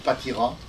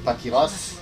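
First: The name ends in a vowel, with no s. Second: The name ends with an audible s sound. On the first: This is the family's traditional form of the name. "moi, dans ma famille, on a toujours dit Patira" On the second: This is how people in the Médoc say the name. "Dans les Médocains, on dit Patiras"

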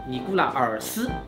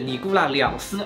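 First: The numeral uses the literary er-like sound. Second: The numeral uses the colloquial liang-like sound. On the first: "这里用文读会更精确一点" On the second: "那两斯它是一个白读"

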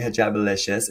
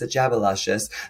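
First: The name ends with a 'licious' sound. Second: The name ends with a 'luscious' sound. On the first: The speaker calls it wrong. "I don't know why I keep saying Hijabalicious" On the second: The speaker calls it right. "It's Hijabiluscious"

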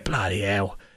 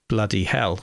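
First: The H at the start of hell is dropped. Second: The H at the start of hell is pronounced. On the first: "if you were East London, Cockney ... you would probably drop the H" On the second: "I would pronounce the H"

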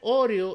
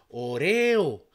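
First: The stress is on the first syllable. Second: The stress is on the second syllable. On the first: "esa tendría que ser una palabra esdrújula" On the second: "la leemos una palabra grave"

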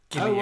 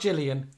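First: The name begins with a hard G sound. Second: The name begins with a soft J-like sound. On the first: The speaker calls it right. "had a hard G" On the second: The speaker calls it wrong. "Not Gillian"

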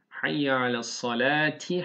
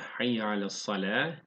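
First: The last word ends with a t and vowel. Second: The last word ends with a soft h. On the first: The reading continues without stopping here. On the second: The reading stops at this word.

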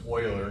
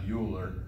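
First: The name begins with an 'oy' sound. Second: The name begins with a 'yoo' sound. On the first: The speaker calls it right. "It's actually pronounced Euler" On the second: The speaker calls it wrong. "not Euler"

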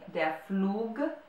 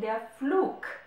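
First: The word ends in a voiced g sound. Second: The word ends in a voiceless k sound. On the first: "I'm not saying der Flug" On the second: "as if there was a K at the end of a word"

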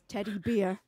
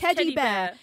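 First: The vowel in bear sounds like 'beer'. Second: The vowel in bear is an open 'air' sound.

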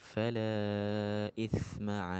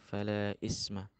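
First: The consonant in the second word sounds like th. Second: The consonant in the second word sounds like s. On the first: The speaker calls it right. "pakai sa ya, bukan pakai sin" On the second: The speaker calls it wrong. "itu yang terdengar fala isma"

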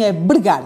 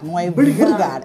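First: The word begins with a B sound. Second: The word begins with a V sound. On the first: The speaker calls it right. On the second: The speaker calls it wrong.

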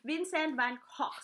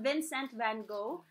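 First: The name is said with a Dutch pronunciation. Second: The name is said without a Dutch pronunciation. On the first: The speaker calls it right. "the proper Dutch pronunciation is Vincent Van" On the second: The speaker calls it wrong. "it's not Vincent Van Gogh"

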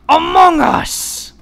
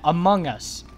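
First: It is said in a put-on imitating voice. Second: It is said in the speaker's ordinary voice. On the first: The speaker calls it right. "I need to do it in the way he says it" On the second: The speaker calls it wrong. "I didn't say it right"

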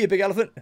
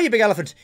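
First: It is said in the speaker's ordinary accent. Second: It is said in a put-on Irish accent.

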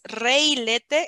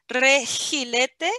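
First: The middle consonant is left out entirely. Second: The middle consonant is a rasping h sound. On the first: "tampoco es reilete" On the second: "no es regilete"

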